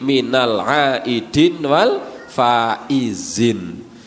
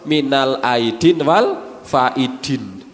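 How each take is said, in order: First: The last word is said with a 'z' sound. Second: The last word is said with a 'd' sound. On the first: "disingkat muni minal aidin wal faizin" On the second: "Mergo kurang fasih"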